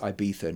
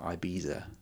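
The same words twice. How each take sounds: First: The middle consonant is a soft th sound. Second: The middle consonant is a buzzing z sound. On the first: The speaker calls it right. "it's Ibiza" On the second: The speaker calls it wrong. "not Ibiza"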